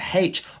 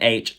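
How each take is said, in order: First: The letter name starts with an h sound. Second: The letter name starts with a vowel sound. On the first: "a H" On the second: "an H"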